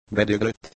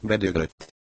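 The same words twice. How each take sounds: First: "Bedöglött?" as a question, pitched up; muttered question. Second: "Bedöglött." as a statement with falling end; confirming answer. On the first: Albino asks about the broken ventilation, muttered question. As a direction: ask "Bedöglött?" higher, seeking confirmation. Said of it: "morogta az albino". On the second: Reply confirming the ventilation broke, falling statement. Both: A narrator's reading.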